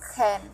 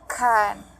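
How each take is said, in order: First: The vowel is reduced to a weak schwa. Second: The vowel is full and clear. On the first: "dalam bentuk lemah itu can" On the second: "dalam bentuk kuat yaitu can"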